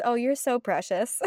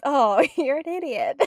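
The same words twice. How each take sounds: First: Cooing, rising to the end; mock endearment. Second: Slow, loud, laughing translation; mock insult. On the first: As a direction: coo it like a fond compliment. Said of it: "Sometimes it just means". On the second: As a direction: spell out the hidden insult, laughing. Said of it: "basically means". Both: Shown as a demonstration.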